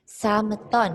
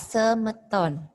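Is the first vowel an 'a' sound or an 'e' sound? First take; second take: a sound; e sound. First: The first vowel is an open 'a' sound. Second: The first vowel is a weak 'e' sound. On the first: The speaker calls it wrong. "Sameton dibaca semeton" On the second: The speaker calls it right. "dibaca semeton"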